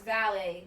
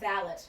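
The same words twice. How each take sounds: First: It is said with a French pronunciation. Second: It is said with an English pronunciation. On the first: The speaker calls it right. "learn how to speak French, so they know it's valet" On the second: The speaker calls it wrong. "not valet, but they keep saying it"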